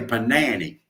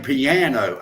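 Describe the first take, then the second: First: It is said in a Southern rural way. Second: It is said the standard, everyday way. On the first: This is how the speaker himself says it. "I say panani" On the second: This is how the listeners say it. "y'all say piano"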